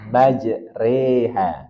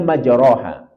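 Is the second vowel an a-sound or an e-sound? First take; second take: e-sound; a-sound. First: The second vowel is bent toward an e. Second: The second vowel is a plain open a. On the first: "dibaca imalah" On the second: "Secara umum kita akan membacanya majroha"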